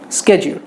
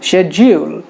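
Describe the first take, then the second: First: It is said with an American accent. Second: It is said with a British accent.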